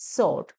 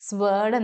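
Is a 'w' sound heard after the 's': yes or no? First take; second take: no; yes. First: No 'w' sound follows the 's'. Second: A 'w' sound follows the 's'. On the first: The speaker calls it right. "ഡബ്ല്യു silent ആണ്" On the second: The speaker calls it wrong. "ഡബ്ല്യു ഉള്ളത് കൊണ്ട്"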